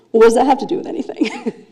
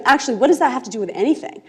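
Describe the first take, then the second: First: Flustered, laughing question; blushing girl deflects with a laugh; embarrassed laugh. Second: Brisk, firmer retort with no laugh; girl regains her anger and retorts quickly; anger back on. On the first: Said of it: "she turns beet red". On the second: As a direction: take the question back, faster and firmer. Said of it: "she gets her anger back on". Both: Retold or imitated.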